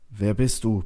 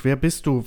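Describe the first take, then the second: First: Mildly strained, effortful question. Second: High, agitated cry; shouted demand. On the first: Settler tries the silent voice once more, strained. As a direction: get it out with some effort. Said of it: "bekommst du angestrengt heraus". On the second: Settler demands the unseen voice's identity, crying out. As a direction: demand it in a raised, panicky voice. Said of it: "schreist du in die Dunkelheit". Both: A narrator's reading.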